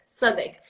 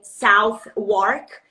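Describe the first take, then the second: First: It is said as one shortened, reduced word. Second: It is said as two full words, as spelled. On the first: The speaker calls it right. "the pronunciation is Th- Southwark" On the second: The speaker calls it wrong. "it's written South Wark"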